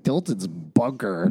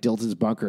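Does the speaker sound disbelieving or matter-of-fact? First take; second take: disbelieving; matter-of-fact. First: It is said in a doubtful, disbelieving way. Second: It is said in a plain, matter-of-fact way. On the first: The listener can't believe what was just said. "as disbelieving as anybody watching the show" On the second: The place is simply being stated. "her being like"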